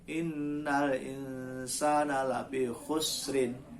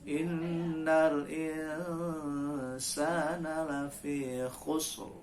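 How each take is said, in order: First: The last word ends with an -in vowel ending. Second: The last word ends abruptly on the consonant r. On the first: The speaker calls it wrong. "Kalau berhenti bukan" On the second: The speaker calls it right. "Kalau berhenti"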